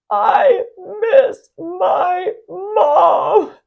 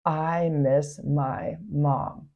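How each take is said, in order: First: Loud, high, drawn-out crying shout; a long sobbing scream for his mother; anguished scream. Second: Soft and slow, only reporting the scream; hushed slow recounting of the boy's cry; quiet, slow retelling. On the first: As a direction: wail it out like a heartbroken child. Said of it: "screamed out". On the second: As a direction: tell the words gently, no scream at all. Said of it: "he screamed out". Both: Retold or imitated.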